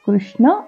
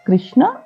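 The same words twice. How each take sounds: First: The first syllable is said with a 'ru' sound. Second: The first syllable is said with an 'i' vowel. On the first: The speaker calls it right. "కృష్ణ అనేది correct" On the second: The speaker calls it wrong. "కృష్ణ కాదు"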